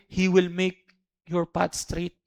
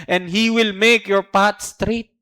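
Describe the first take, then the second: First: Slow repeat. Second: Slow reading. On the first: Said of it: "slow repeat". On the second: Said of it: "verse reading slow". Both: Shown as a demonstration.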